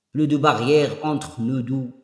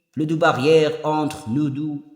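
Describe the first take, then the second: Both takes have the same delivery.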